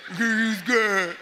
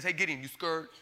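First: Louder, slow, laughing poke at him; laughing tease. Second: God's hushed, gentle teasing voice; soft teasing question. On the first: God ribbing the frightened Gideon, laughing and louder. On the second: God teasing Gideon in his tent, softly. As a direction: lean in and ask it softly, half teasing. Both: Retold or imitated. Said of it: "and he says".

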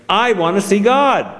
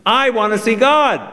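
First: Demanding princess. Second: Bossy little princess. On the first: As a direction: insist like a spoiled child. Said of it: "she stamped her foot and said". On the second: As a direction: whine it like a spoiled royal. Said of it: "retorted the princess". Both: A narrator's reading.

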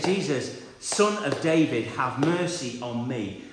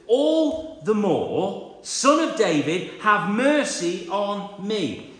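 First: Said in the usual way. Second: Loud, drawn-out desperate cry for mercy. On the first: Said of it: "He says". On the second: Acted. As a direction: call out over the crowd, slowly. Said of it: "he shouted".

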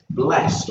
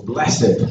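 First: "blessed" said as one syllable, BLEST. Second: "blessed" said as two syllables, BLESS-id. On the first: Preacher translating Benedictus from Latin, "blessed" as one syllable. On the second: Preacher offering the alternative reading, "blessed" as two syllables. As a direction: say "blessed" with the ending sounded, bless-ed. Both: Shown as a demonstration. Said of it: "you might want to say that".

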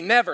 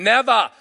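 First: Said in the usual way. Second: Loud Australian crowd reply, no final r; Australian accent. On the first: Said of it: "No, say it like me". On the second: Retold or imitated. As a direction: imitate Australians dropping the final r in "Never". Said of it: "That's Australian".

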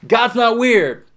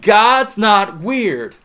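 First: Not punched higher and louder; stress on not. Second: Slow, loud God's not weird; emphatic repeat. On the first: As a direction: hit the word not. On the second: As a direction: lean hard on each word. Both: Shown as a demonstration. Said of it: "I'm gonna say that again".

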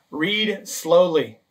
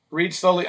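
First: Slow, deliberate. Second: Said in the usual way. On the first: Shown as a demonstration. Pastor showing how to read scripture, drawn out slowly. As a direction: stretch each word out, very slowly.

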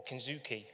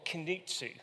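First: "kinzuki" with a buzzed "z" and final "kee"; alternative pronunciation. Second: "kinitsu" with a "ts" before the final "oo"; alternative pronunciation. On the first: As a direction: say "kinzuki", ending in "zoo-kee". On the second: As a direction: say "kinitsu", ending in "tsu". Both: Shown as a demonstration. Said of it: "whichever way you wanna say it".

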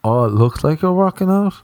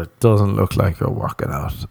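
First: High, impressed and admiring; upbeat approving tone of a friend. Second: A flat, doubting friend's tone; dismissive tone. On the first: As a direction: say it like a real compliment. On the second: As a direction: say it like a put-down. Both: Retold or imitated. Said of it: "couldn't tell in the tone".

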